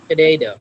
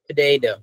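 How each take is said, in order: First: The second t sounds like a soft d. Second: The same.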